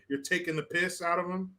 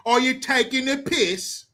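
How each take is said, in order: First: Said in the usual way. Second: High-pitched British questioning; mock British accent. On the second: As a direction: ask it in put-on British. Repeats British slang in accent.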